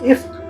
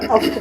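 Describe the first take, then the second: First: The word begins with an 'i' vowel. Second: The word begins with an 'a' vowel. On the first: "ज़े के साथ" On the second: "ज़बर के साथ भी पढ़ सकते हैं"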